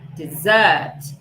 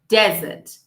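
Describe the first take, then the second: First: The stress is on the second syllable. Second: The stress is on the first syllable. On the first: "vai ter o sílabo forte na segunda sílaba" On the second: "desert vai ter esse som forte no começo da palavra"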